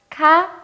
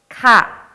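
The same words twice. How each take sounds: First: It is said in the third tone, pitch raised. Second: It is said in the second tone, not raised. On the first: It is used when asking a question. "삼성으로 가, 가 이렇게 올려주시면은" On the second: It is used when answering or in statements. "이성 소리가 나는 가"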